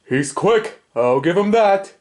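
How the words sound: Alf's voice is low in pitch.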